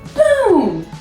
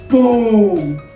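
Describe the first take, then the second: First: It is said in a high-pitched voice. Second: It is said in a low, deep voice. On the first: "I like to say boom in a high-pitched voice" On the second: "Probably a low voice"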